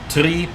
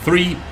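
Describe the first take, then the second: First: The word begins with a plain t sound. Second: The word begins with a th sound. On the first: "replaced by just a t" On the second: "pronouncing the th"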